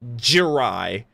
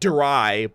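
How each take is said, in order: First: It begins with a J-like sound. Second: It begins with a plain D-R sound. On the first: The speaker calls it right. "like J R Y, like J" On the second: The speaker calls it wrong. "not dry"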